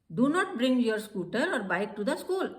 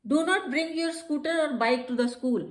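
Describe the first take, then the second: First: Said in the usual way. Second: Slow, louder firm instruction. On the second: Shown as a demonstration. Teacher demonstrates a school rule instruction, firm. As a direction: state the rule firmly. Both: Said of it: "फिर हम क्या कह सकते हैं?".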